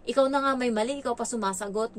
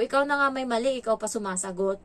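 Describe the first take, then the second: First: Mildly angry scolding. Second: Put-on firm telling-off of a child; mildly angry scolding. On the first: Retold or imitated. Helper scolds the ward who answers back, mildly angry. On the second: Helper repeats the scolding to the ward, mildly angry. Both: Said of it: "Yung boses ko, iba na din, ah, medyo galit na".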